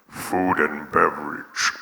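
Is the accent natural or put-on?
put-on. It is said in a put-on accent. The speaker is trying to impress. The speaker calls it wrong. "Put on a voice"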